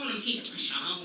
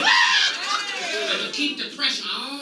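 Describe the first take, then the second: First: Low, soft repeat of the line; quiet echo. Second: Preacher's shout. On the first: Comic to the crowd after shouting, a soft low echo. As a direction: drop it to a menacing hush. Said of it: "the shouted take before". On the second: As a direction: bellow it to the congregation. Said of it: "repeats the line quietly". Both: Acted.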